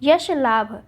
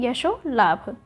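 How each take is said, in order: First: यश लाभ with no o after sh; the mistaken yash in यश लाभ; wrong form यश लाभ. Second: यशो लाभ with o after sh; long sho in यशो लाभ; correct form यशो लाभ. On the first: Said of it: "यशो लाभ हो जाएगा". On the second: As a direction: say यशो लाभ as yasho laabh. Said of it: "क्या होगा यहाँ पे". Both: Shown as a demonstration.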